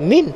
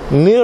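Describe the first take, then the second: First: It ends with an n sound. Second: It ends with an r sound. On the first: The speaker calls it wrong. "bukan min" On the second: The speaker calls it right. "Mir, bukan min"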